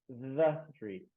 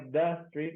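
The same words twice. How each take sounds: First: The 'th' is a true th sound. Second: The 'th' is replaced by another sound. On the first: The speaker calls it right. "mas the street" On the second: The speaker calls it wrong. "Não é the street"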